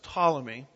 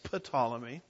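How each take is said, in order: First: The word begins with a T sound, no P. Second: The word begins with an audible P sound. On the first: The speaker calls it right. "you know that the P is silent there" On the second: The speaker calls it wrong. "I've been pronouncing Ptolemy as Ptolemy"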